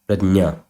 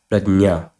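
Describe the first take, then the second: First: The middle cluster is pronounced j-n. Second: The same.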